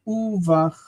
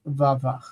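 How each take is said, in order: First: Uvach opening on an "oo" vowel. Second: Vavach opening on a full "va". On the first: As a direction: say "uvach" with u before vach. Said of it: "instead of reading uvach". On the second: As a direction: say "vavach" with va in place of u. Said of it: "in this case is vavach". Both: Shown as a demonstration.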